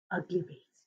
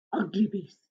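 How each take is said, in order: First: Much softer echo; fading whisper. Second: Soft repeated words; quiet echo. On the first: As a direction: let it fade almost away. Repeats again, softer. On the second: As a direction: say it under your breath. Repeats the phrase softly. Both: A narrator's reading.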